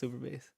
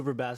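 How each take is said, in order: First: Bass is said like low musical bass. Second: Bass is said like the fish name. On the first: The title is about low musical bass. The speaker calls it right. "And then I realized like it's Super Bass" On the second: The title is about a fish. The speaker calls it wrong. "I thought this bitch was like fishing or something"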